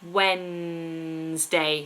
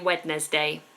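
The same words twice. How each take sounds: First: The middle D is silent. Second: The middle D is sounded. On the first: The speaker calls it right. "Silent D, please, everybody" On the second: The speaker calls it wrong. "But we don't say Wednesday, which some people do, so don't do that"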